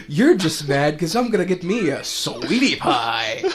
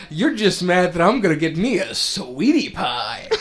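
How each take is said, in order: First: High, loud mock quote; imitating friends' voice. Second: High, loud cocky quote; Zidane voice. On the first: Friends repeating the meme, high loud mocking voice. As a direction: parrot the meme line playfully. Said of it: "kept saying it in different voices". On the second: Retold or imitated. Zidane teasing Blank, high loud put-on voice. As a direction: tease it like a smug flirt. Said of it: "And Zidane says".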